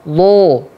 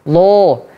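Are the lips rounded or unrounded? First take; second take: rounded; rounded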